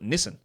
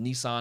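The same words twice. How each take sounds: First: The name is said the Australian way. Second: The name is said the Japanese way. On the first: "the literal company in Australia on all of their advertising calls it Nissan" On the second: "it's pronounced Nissan because it's Japanese"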